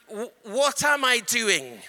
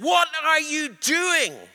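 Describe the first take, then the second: First: Said in the usual way. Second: High, slow shriek of a spirit; the spirit shrieks at the preacher in alarm, high shriek; shrieking demon. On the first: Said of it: "And I said". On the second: Retold or imitated. Spirit questions the minister, shrieking high. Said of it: "it shrieked and said".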